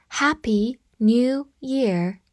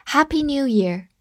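First: Slow, each word separated; slow read-through. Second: Said in the usual way. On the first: Shown as a demonstration. Teacher showing learners a New Year greeting, slow read-through. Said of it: "好，我们慢读一遍".

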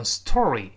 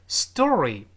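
First: STORY with a puffed t after the s; t left aspirated. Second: STORY with the t softened to a d; t voiced to d. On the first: Teacher warning learners off it, "story" with an aspirated t. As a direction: say "story" with a full voiceless t. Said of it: "而不能读成story". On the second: Teacher modelling the word for learners, "story" with t turned to d. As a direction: say "story" like "sdory", drawn out. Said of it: "清辅音就会浊化成浊辅音". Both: Shown as a demonstration.

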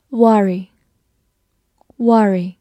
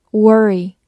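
First: Worry, first vowel not r-coloured; first pronunciation variant. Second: Worry, first syllable like "were"; alternative pronunciation. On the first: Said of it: "或者也可以读作worry". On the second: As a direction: worry with an r-coloured first vowel. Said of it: "或者也可以读作". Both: Shown as a demonstration.

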